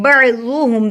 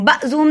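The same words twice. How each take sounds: First: "بعضهم" as ba'-zuhum with a squeezed throat ain; clear ain. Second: "بعضهم" as a plain "bazuhum", no throat sound; missing ain. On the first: Teacher correcting learners, "بعضهم" with a clear ain. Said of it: "عین کی آواز نکالیں". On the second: Teacher showing the mistake, "بعضهم" without its ain. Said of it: "بعضهم نہیں پڑھنا". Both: Shown as a demonstration.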